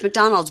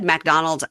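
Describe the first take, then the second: First: The first syllable has a reduced 'muh' vowel. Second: The first syllable has a full 'mack' vowel. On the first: "No, it's McDonald's" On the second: "if you said McDonald's"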